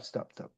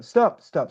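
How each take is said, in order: First: Dropped to a breathy whisper; soft whispered repeat; whispered stop. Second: Louder, commanding retold stop; forceful stop, stop; firm stop. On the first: Retold or imitated. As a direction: hush it down to a whisper. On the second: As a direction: cut her off firmly. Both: Retold: stopping his sister.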